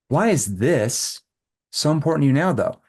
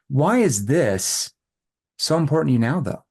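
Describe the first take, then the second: First: The word 'this' is stressed, followed by a pause. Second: The word 'this' is stressed, followed by a pause.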